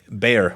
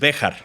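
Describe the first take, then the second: First: The name is said like the English word bear. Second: The name is said with Spanish sounds, two syllables. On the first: This is how locals say the name today. "we say bear" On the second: This is the original form of the name. "which is Béjar"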